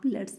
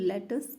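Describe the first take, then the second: First: It is said as one contracted word. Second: It is said as two separate words.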